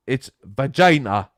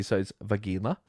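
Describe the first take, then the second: First: Vagina said slowly and louder as va-ZHAI-na; mock Norwegian word. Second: Vagina said va-GEE-na with a hard G. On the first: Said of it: "we have a word for it". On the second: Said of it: "accent the G". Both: Shown as a demonstration.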